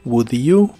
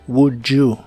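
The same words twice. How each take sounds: First: The d and y sounds stay separate. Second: The d and y merge into a j sound.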